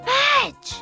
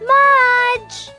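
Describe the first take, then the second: First: It is whispered softly. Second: It is whispered more loudly.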